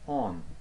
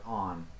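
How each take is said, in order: First: The vowel is a British English rounded o. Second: The vowel is an open American English ah. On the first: "as in English, same as in here, in English" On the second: "in American English, maybe pronunciation like on"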